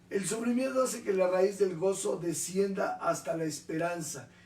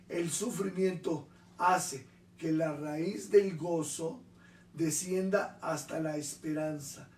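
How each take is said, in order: First: It is said at a normal speed. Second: It is said more slowly.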